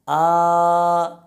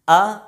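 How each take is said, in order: First: The vowel is stretched out long. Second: The vowel is short and smoothly released. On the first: The speaker calls it wrong. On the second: The speaker calls it right.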